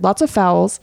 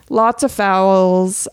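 First: Said in the usual way. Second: "Lots of fouls" slow, with stress wrongly on "of"; stretched "Lots OF fouls"; odd stress. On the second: Shown as a demonstration. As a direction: drag it out, leaning on "of". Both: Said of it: "I said that weird".

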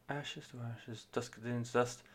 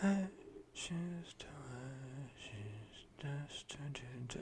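First: Much softer, gentle rendering of the lyric; gentle imitation. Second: Breathy whisper of the backing chorus; whispered imitation. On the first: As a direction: ease it out softly like the lead singer. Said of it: "vocalist in it is obviously being, like, very gentle". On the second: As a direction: whisper it like the male backing vocalists. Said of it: "they're all being like".

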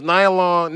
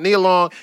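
First: "Nia" said as NYE-uh; mispronounced name. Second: "Nia" said as NEE-uh; corrected name. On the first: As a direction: say "Nia" with an eye vowel, NYE-uh. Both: Real, not acted.

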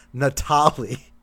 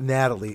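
First: "Natalie" said nuh-TAH-lee, stress on the middle syllable with a long open a; foreign-sounding name. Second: "Natalie" said the usual English way, stress on the first syllable, NAT-uh-lee; plain English name. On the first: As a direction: stretch "Natalie" slowly, stress on TAH, as if Lebanese. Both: Retold or imitated. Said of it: "My name's not Natalie. It's Natalie".

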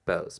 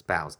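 First: Bows said like "bose", rhyming with "toes"; unsure pronunciation. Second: Boughs rhyming with "cows"; unsure pronunciation. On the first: Host unsure of the word tries Bows with an "oh" sound. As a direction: say Bows with a long "oh". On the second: Host unsure of the word tries boughs with an "ow" sound. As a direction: say boughs with an "ow" vowel. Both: Shown as a demonstration. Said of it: "don't know how to say that".

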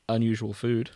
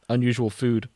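Both takes have the same delivery.

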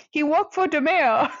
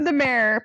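First: Thick mock Boston accent, R's dropped. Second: Said in the usual way. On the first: Shown as a demonstration. Joking that he works for the mayor, Boston accent. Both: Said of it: "but with a Boston accent".

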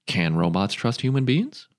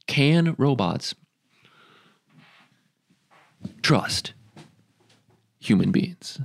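First: Said in the usual way. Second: Can robots, slow, a pause, then trust human beings with a rise; slow dramatic repeat. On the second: Shown as a demonstration. Mock-dramatic question to the viewers, slow and paused. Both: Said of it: "ask the question".

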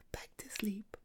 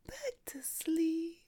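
First: Whispered back to sleep; quiet whispered lull; soft whisper. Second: Drawn out, higher whispered back to sleep; slow the lull right down; slower, higher crooning whisper; slow soothing whisper. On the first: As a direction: hush the kitten down. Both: Acted.

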